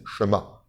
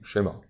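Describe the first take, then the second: First: The sh runs straight into the m. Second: A light e is heard after sh. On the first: "eux ils disent" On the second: "ça devient un e léger"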